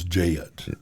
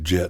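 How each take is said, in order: First: The vowel is stretched into a glide. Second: The vowel is short and plain.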